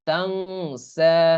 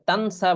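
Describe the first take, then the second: First: The n is held as a nasal hum. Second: The n is said plainly and briefly. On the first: The speaker calls it right. "বরং পড়তে হবে তাং সা" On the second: The speaker calls it wrong. "এটা তানসা বলা যাবে না"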